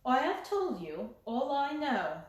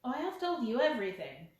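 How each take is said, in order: First: Set like a mask. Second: Said in the usual way. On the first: Acted. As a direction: close the door on him. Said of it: "caused it to set like a mask".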